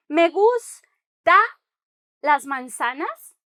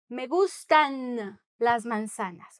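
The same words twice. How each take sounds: First: Me gusta las manzanas said as a mistake; slow questioning me gusta, las manzanas rising; wrong form gusta. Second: Me gustan las manzanas, slow, gustan marked; correct form gustan. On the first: Teacher showing the wrong form, slowly questioning. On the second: Teacher giving the correct form, slow and clear. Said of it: "you are saying". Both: Shown as a demonstration.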